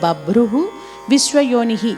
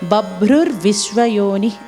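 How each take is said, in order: First: The two words are said separately without linking. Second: An r sound links the two words together. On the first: The names are recited one by one. "మనం విడదీసి చెబుతున్నప్పుడు" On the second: The whole line is recited continuously. "కలిపినప్పుడు బభ్రుర్ విశ్వయోని అని పలికితే బాగుంటుంది"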